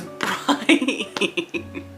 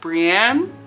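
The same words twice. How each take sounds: First: The name is said the narrator's odd way. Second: The name is said the usual way. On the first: The speaker calls it wrong. "This man thinks that Brienne's name is Brienne" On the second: The speaker calls it right. "her name is pronounced Brienne"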